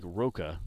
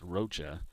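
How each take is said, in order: First: Roca with a hard k in the middle; spelling pronunciation. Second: Rocha with a ch as in church; correct name pronunciation. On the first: Announcer showing how the surname looks, Roca with a k sound. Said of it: "the way it's spelled". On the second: Announcer giving the player's real surname, Rocha said with a ch sound. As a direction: say Rocha with a soft "cha" ending, not "ka". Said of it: "but it's pronounced Rocha". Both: Shown as a demonstration.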